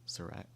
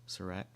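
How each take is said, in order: No difference in how they are said.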